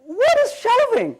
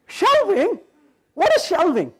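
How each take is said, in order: First: Higher, slower "What is shelving?"; incredulous question. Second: Higher, laughing "Shelving? What is shelving?"; baffled disbelief. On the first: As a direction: stretch it out, in disbelief. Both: Retold or imitated. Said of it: "I'm like".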